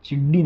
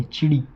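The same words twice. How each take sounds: First: चिड्डी said with a hard doubled dd; wrong pronunciation. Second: चिड़ी said with one quick flapped ड़; correct pronunciation. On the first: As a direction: say चिड्डी and lean on the long double d. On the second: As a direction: say चिड़ी lightly, with a single short flap. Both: Shown as a demonstration. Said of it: "चिड्डी नहीं".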